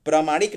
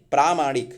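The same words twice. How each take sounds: First: प्रामाणिक with short A after प्र; wrong form प्रामाणिक. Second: प्रामाणिक with long AA after प्र; correct form प्रामाणिक. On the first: Teacher rejects the short vowel, loud mistaken form. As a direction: say प्रामाणिक as pra-maa-nik, loud. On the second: Teacher corrects the short vowel, loud correct form. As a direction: say प्रामाणिक as praa-maa-nik, loud. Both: Shown as a demonstration. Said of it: "प्रामाणिक नहीं".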